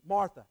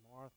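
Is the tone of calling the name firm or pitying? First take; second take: firm; pitying. First: The name is said in a firm, attention-getting tone. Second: The name is said in a pitying, mournful tone. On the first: Jesus is calling Martha to pay attention. The speaker calls it right. "a more faithful reading is" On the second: Jesus pities Martha for being so worried. The speaker calls it wrong. "kind of like a pathetic Martha"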